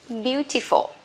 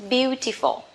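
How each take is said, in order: Both takes have the same delivery.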